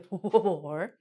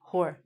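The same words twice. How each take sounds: First: The word starts with a sounded W. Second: The word starts without any W sound. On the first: The speaker calls it wrong. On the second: The speaker calls it right.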